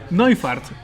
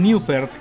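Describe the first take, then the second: First: The last syllable is said as 'fart'. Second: The last syllable is said as written, 'fert'. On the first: This is the original German pronunciation. The speaker calls it right. "es Neufart, así se pronuncia en realidad" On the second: This is the common reading that follows the spelling. The speaker calls it wrong. "todos decían el Neufert, que se escribe"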